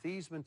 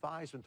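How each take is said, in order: First: The name does not rhyme with Heisman. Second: The name rhymes with Heisman. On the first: This is the family's original way of saying it. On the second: This is the new way, chosen to echo the trophy.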